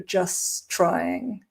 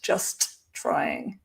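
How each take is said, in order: First: Only one T sound links the two words. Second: Both T sounds are pronounced separately. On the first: The speaker calls it right. "then you only hear one T, and that's the second one" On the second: The speaker calls it wrong. "not just trying, because it's too hard to say"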